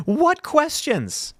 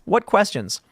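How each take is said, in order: First: High, slow disbelief; drawn-out mock bewilderment; incredulous. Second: Said in the usual way. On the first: Real, not acted. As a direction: scoff at it, baffled. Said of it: "mocking a headline".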